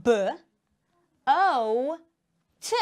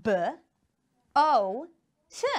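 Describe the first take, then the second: First: B, O, T with a pause after each letter; teacher spelling B, O, T for the class; spelled out letter by letter. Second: B, O, T again, each letter apart; spelled out letter by letter. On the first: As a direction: spell boat out slowly, letter by letter. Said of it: "look what happens here in boat". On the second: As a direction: spell it out once more, letter by letter. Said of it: "let's do it again". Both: Shown as a demonstration.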